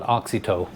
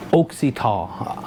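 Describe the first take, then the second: First: Oxytow as AHK-see-toe, quick; own pronunciation. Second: Slow Oxytol as OHK-see-taw; company's pronunciation. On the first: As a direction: Oxytow with open AH first and TOE last. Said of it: "I'm gonna call it". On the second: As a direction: Oxytol with a long OH and a falling TAW. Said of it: "it's probably sounds different". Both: Shown as a demonstration.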